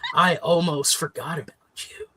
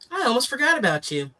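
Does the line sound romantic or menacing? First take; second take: menacing; romantic. First: It is said in a dark, menacing way. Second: It is said in a light, romantic way. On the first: It is a line from a murder thriller. "could be also a suspenseful murdery movie" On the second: It is a line from a love story. "That sounds like a romantic comedy one"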